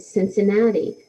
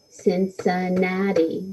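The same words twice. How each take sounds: First: Said in the usual way. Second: "Cincinnati" slowly split into four even beats; syllable by syllable. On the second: Shown as a demonstration. Teacher counts four syllables for pupils, "Cincinnati" slow and separated. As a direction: clap out "Cincinnati" one syllable at a time. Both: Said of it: "that would have four syllables".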